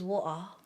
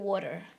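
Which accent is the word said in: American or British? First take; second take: British; American. First: The word is said in a British accent. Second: The word is said in an American accent. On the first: "But here is water" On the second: "American accent is probably water"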